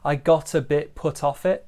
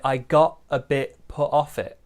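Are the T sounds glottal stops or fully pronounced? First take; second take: fully pronounced; glottal stops. First: The T sounds are fully pronounced. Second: The T sounds are glottal stops.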